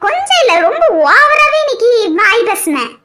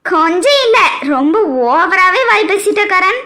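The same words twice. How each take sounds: First: A laughing, louder teasing second take; laughing repeat, louder. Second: Teasing laugh. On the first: Wife repeats it to her husband, louder and laughing. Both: Acted. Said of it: "என்னம்மா சொல்றிய?".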